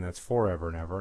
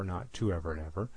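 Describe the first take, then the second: First: First syllable of "forever" stressed; brisk correction, weight on the "for" of "forever". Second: Softer, quick aside leaning on "to"; stress on TO. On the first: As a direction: lean on the "for" in "forever". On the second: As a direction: reject "to" by stressing it. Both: Shown as a demonstration.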